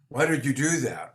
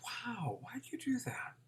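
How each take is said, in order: First: It sounds accusing, like a prosecutor. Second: It sounds curious, with childlike wonder.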